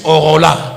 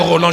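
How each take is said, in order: First: The name is said with Tetela-style vowel shifting. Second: The name is said in standard French pronunciation. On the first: This is how the father calls him. "je suis Orola. Il me dit Orola" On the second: This is the usual form of the name. "je ne suis jamais un Roland"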